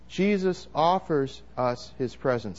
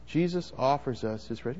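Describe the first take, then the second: First: Slow, even call for the room to repeat; lead the congregation. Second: Softer, as if to the person beside you; to your neighbour. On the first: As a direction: say it slowly so all can join. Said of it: "Say that with me". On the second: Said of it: "Say that to the person next to you". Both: Shown as a demonstration.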